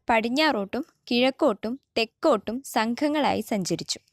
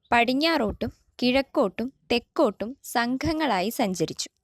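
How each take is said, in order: The two takes are said the same way.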